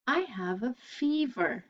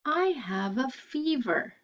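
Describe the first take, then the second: No difference in how they are said.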